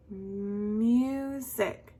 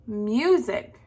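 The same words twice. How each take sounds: First: Music with a long held MU, then SIC; music slowly sounded out in two beats; broken into syllables. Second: Said in the usual way. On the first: Shown as a demonstration. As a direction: stretch out the MU in music. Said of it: "break up the word". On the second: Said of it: "The next one".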